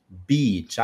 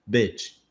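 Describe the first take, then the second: First: "beach" with a long, tense ee; "beach" with a long ee, clearly set apart from "bitch"; long vowel beach. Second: "Bitch" with a short, lax, quick i; "Bitch" with a short i, clearly set apart from "beach". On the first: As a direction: open the mouth wide and hold the ee in "beach". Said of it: "eu vou falar beach". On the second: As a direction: keep the i in "Bitch" loose and fast. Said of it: "O I é mais fraco ... sai mais rápido". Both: Shown as a demonstration.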